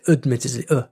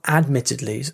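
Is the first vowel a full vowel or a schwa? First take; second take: schwa; full vowel. First: The first vowel is a reduced schwa sound. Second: The first vowel is a full a sound. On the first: The speaker calls it right. "we just say admittedly, like that" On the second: The speaker calls it wrong. "it's not admittedly"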